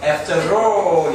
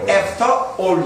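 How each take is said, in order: First: An r sound links after into all. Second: After ends without r before all. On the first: The speaker calls it right. "영국 사람도 마찬가지로 after all 이라고 하지" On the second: The speaker calls it wrong. "after all 이라고 안 한다"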